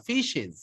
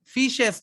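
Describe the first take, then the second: First: ফিশেস ending in "iz"; ফিশেস with a light i and z; correct ending. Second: ফিশেস with a hissed "es"; ফিশেস ending crisp s; wrong ending. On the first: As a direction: say ফিশেস as "fish-iz". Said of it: "একটু হালকা ই এর মতো উচ্চারণ হবে". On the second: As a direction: say ফিশেস as "fish-es". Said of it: "ফিশেস না". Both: Shown as a demonstration.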